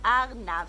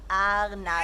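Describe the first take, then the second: First: "Arnav" said again as AR-nav, falling finish; a settled final "Arnav" for the child; Hebrew word. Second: "Arnav" said clearly as AR-nav, Hebrew; the Hebrew word "Arnav" said loud and clear. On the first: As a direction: repeat "Arnav" with a falling close. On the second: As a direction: model "Arnav" slowly for children. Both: Shown as a demonstration. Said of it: "You say arnav".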